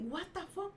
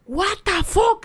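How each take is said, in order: First: Very soft, high retold question; tiny stunned voice; baffled disbelief. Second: High, loud retold "what the fuck"; loud disbelief. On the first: (incredulidad en voz bajita y aguda) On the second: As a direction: burst out stunned. (incredulidad a gritos, aguda) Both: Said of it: "Así me quedé".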